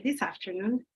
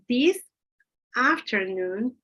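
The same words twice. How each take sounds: First: The final s runs into the next word. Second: The two words are kept apart without linking. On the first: The speaker calls it right. "the last sound uh, gets together with the first sound of the, of the next word" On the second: The speaker calls it wrong. "You don't say"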